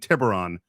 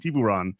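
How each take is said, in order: First: It is said with a local American pronunciation. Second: It is said with a Spanish pronunciation. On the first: This is what locals call the town. "my small town that nobody ever calls that" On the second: This is the original Spanish name for shark. "correctly pronounce"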